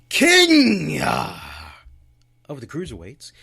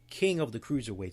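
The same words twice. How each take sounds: First: It is said in a grand, regal, dramatic manner. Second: It is said in a plain, ordinary, flat manner. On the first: The title sounds like the ruler of everything. The speaker calls it right. "You gotta say it like that" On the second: The title sounds like an ordinary label. The speaker calls it wrong. "You can't say King of the Cruiserweights"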